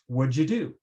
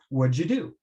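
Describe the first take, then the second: First: 'Did' is shortened and joined to 'what'. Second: 'Did' is shortened and joined to 'what'.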